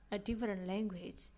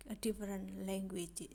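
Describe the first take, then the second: No difference in how they are said.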